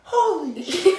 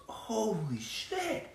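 First: A higher, louder yell broken by laughter; dad imitating his son yelling a movie line; laughing kid shout. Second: Put-on kid's exclamation. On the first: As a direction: shout it like a giddy kid while cracking up. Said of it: "Tanner just stood up ... like". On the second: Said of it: "one of the boys goes".

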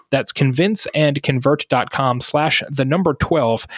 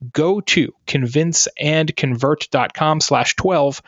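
First: Said in the usual way. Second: Slow, deliberate read with "twelve" landing on a fall; careful ad-read pace, every word of "convince and convert dot com slash twelve" spaced out; slow URL read. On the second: Shown as a demonstration. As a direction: read the link out slowly for listeners to note down.

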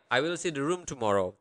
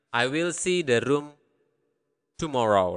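First: Fast, joined-up recap; quick run-through. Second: Long pause before the last word; careful, broken up. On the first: Teacher recapping the translated sentence, quick run-through. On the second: Teacher piecing a translation together, careful and broken up. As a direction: give the sentence in separate pieces. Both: Shown as a demonstration.

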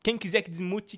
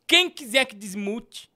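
First: Said in the usual way. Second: "Quem quiser que desmute" said slowly, leaning on "quem"; slow, stressed. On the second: Shown as a demonstration. Streamer repeats the superchat demand to viewers, slow and pointed. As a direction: drag out "quem" to make it a challenge.

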